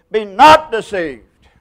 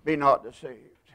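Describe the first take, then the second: First: "not" stretched and punched, slow and loud; a slow, loud "Be not deceived" with "not" held long; emphatic warning. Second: "Be not deceived" said quieter and lower; a hushed "Be not deceived"; soft echo. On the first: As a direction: hammer the word "not" slowly. Preacher repeats the warning. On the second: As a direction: drop the voice and let "not" sink in. Repeated quietly after the warning. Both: Acted.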